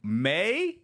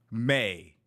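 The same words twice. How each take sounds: First: High disbelieving question; incredulous. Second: Said in the usual way. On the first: Real, not acted. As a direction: repeat it in disbelief. Incredulous echo of news.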